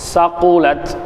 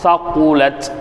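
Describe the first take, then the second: First: The word begins with a plain s sound. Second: The word begins with a th sound. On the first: The speaker calls it wrong. "சீன் வச்சு ஓதிட்டாரு" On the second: The speaker calls it right. "சா சா சகுலத் அப்படின்னு இருக்குது"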